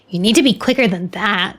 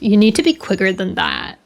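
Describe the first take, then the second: First: It is said in a plain reading voice. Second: It is said in a put-on bro voice.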